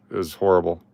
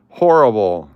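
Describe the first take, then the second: First: Said in the usual way. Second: 'Horrible' repeated much louder, leaning hard on HOR; emphatic repeat. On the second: Real, not acted. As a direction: punch 'Horrible' out as a loud echo.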